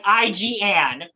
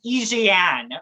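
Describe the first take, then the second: First: "I G Anne" slowly, as eye-jee-ANN; English letter names. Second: "Igiane" said slowly as French, ee-zhay-ANN; French letter names running into a woman's name in "Igiane"; French pronunciation. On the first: Explaining the pun to the host, English letters in "I G Anne". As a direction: spell out "I G" in English, then land on "Anne". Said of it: "Like I G Anne". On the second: Revealing a drag queen's pun name, slow French "Igiane". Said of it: "so in French it's I G A". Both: Shown as a demonstration.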